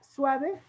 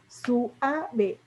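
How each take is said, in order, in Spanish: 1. Las vocales u y a se unen en dos sílabas. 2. Las vocales u y a se separan en tres sílabas. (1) "en lugar de que se lea suave" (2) "se suaviza el sonido"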